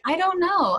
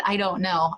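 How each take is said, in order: First: High, slightly louder blurted reply; caught-off-guard high blurt; startled blurt. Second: Said in the usual way. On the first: Retold or imitated. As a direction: blurt it out on a jump in pitch. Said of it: "I said it absentmindedly". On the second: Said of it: "And I responded".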